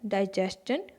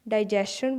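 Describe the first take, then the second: First: The ending is said with a 'schun' sound. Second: The ending is said with a 'shun' sound. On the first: The speaker calls it right. "सही उच्चारण क्या है?" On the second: The speaker calls it wrong. "डाइजेशन बोलते हैं"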